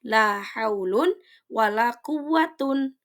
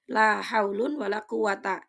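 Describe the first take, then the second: First: The last word ends in -un. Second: The last word ends in a short -a. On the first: The second la works like laisa. "Yang kedua bisa dibaca ropa" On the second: The second la works like inna. "Yang pertama itu mabni patah"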